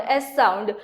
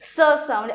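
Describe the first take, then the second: First: S said by its letter name, "ess", lower; letter's name. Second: S said as a hissed "suh", not the letter name; letter's sound. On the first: Teacher clarifying the cédille sound, S said as "ess". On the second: Teacher explaining the cédille to learners, S voiced as "suh". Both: Shown as a demonstration. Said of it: "it gives a s sound".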